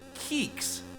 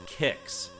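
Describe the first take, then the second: First: It sounds like 'keeks' with a long ee. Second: It sounds like 'kicks' with a short i. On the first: "some people pronounce it Keeks" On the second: "I've always pronounced the name Kicks"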